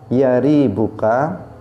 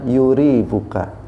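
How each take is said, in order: First: The first syllable has an 'a' vowel. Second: The first syllable has a 'u' vowel. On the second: "boleh dibaca"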